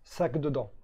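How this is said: The first word begins with an s sound. It is the standard French form with no meaning. "En français classique, ça fait s- sac dedans"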